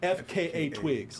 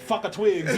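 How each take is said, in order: First: FKA is spelled out letter by letter. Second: FKA is read as ordinary words. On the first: The speaker calls it right. "You just got to say the letters" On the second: The speaker calls it wrong. "it ain't fuck a twigs"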